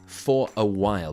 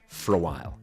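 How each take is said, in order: First: Each word is said separately and in full. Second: The words run together with weak vowels. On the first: "for a while becomes" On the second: "That's a very common thing that we do in English"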